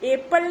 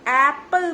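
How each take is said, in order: First: The first vowel sounds like the letter name 'ay'. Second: The first vowel is a short open 'eh' sound. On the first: The speaker calls it wrong. "ए है alphabet, एप्पल नहीं बोलते" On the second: The speaker calls it right. "एप्पल बोलते हैं"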